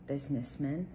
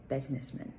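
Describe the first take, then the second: No difference in how they are said.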